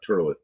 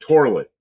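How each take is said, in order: First: The first syllable sounds like 'tur'. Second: The first syllable sounds like 'tor'. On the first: The speaker calls it wrong. "not turlet" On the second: The speaker calls it right. "It's torlet"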